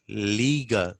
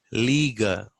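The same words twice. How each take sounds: The two takes are said the same way.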